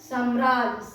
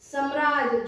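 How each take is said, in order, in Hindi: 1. पहले अक्षर का स्वर लंबा है। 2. पहले अक्षर का स्वर छोटा है। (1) "इसका शुद्ध शब्द क्या है?" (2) "जो कि अशुद्ध शब्द है"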